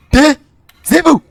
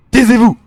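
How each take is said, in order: First: Slow, high, stretched taisez-vous; drawn-out mock order. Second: Sharp order. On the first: Stretching taisez-vous slow and high at the game. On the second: Real, not acted. Shouting at game characters.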